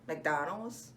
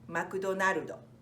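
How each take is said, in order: First: It is said with an American English pronunciation. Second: It is said with a Japanese pronunciation, ending in -o. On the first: "we say McDonald's in the States" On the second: "In Japan, we say McDonaldo"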